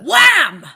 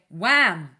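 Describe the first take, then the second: First: The word is shouted very loudly. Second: The word is said at a quieter volume. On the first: "you just shouted that so loudly" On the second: "Let me try again"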